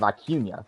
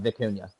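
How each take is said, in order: First: The n is followed by a y sound. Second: The n has no y sound after it. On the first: "putting a y in there and calling it vicuña" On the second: "I'm lazy, so I just call it vicuña"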